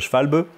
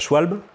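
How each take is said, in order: First: The name is pronounced the German way. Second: The name is pronounced the French way. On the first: "Les Allemands ils disent plutôt Schwalbe" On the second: "en français, on peut dire euh, Schwalbe"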